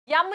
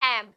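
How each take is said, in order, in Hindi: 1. अक्षर के नाम की शुरुआत y की ध्वनि से होती है। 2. अक्षर के नाम की शुरुआत एक सादे स्वर से होती है। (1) "यम नहीं" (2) "एम, है ना?"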